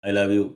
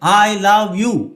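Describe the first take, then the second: First: It is said flatly, without feeling. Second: It is said with intense, lively pitch. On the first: The listener does not feel the love. The speaker calls it wrong. "യു don't feel it" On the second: The listener feels the love. The speaker calls it right. "യു have to say I love you"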